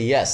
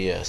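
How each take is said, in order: First: The pitch rises and it is louder. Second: The pitch is low and falls. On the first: "yes here with loudness and rising uh, tone" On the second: "my lazy answer looks like the tone is very uh, low, and that's why it's look it looks like falling"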